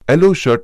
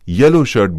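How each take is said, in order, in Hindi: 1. यह शब्द स्वर ध्वनि से शुरू होता है। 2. यह शब्द व्यंजन ध्वनि से शुरू होता है। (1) "स्वर से प्रारंभ येलो शर्ट ना बोलकर" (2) "व्यंजन से प्रारंभ येलो शर्ट बोलें"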